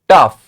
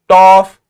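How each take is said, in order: First: The vowel is a short 'uh' sound. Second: The vowel is a short 'o' sound. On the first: The speaker calls it right. "we have the sound of uff, not oof, but uff" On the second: The speaker calls it wrong. "not toff"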